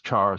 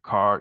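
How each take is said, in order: First: The word begins with a ch sound. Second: The word begins with a k sound. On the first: "some people pronounce this char" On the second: "some people pronounce it car"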